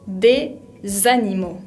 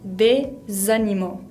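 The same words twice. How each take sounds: Both takes have the same delivery.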